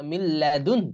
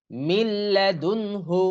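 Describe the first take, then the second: First: "মিল্লাদুন" ending in a light h, no vowel; stopping pronunciation. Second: Slow "মিল্লাদুনহু" with the final hu fully voiced; continued reading ending. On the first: Teacher showing the stop, faint h closing "মিল্লাদুন". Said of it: "এরকম হবে". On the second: Teacher reading it through, full hu on "মিল্লাদুনহু". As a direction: sound every syllable of "মিল্লাদুনহু", ending on hu. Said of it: "এখানে যেহেতু আমরা থামবো". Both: Shown as a demonstration.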